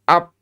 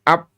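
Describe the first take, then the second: First: The sound is stopped abruptly like a p. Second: The sound is stopped abruptly like a p.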